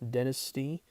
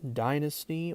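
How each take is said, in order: First: It is said with an Australian pronunciation. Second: It is said with a plain, non-Australian pronunciation.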